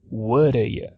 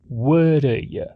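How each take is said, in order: First: The words are reduced and run together. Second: The words are reduced and run together.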